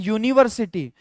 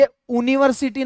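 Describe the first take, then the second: First: The word begins with a consonant Y sound. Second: The word begins with a plain vowel sound. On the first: The speaker calls it right. "यह है यूनिवर्सिटी" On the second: The speaker calls it wrong. "ये यूनिवर्सिटी नहीं है"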